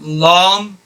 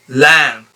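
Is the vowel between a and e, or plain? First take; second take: plain; between a-e. First: The vowel is a plain open a sound. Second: The vowel sounds between a and e. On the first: The speaker calls it wrong. "it's not lam" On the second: The speaker calls it right. "The sound is between a and e"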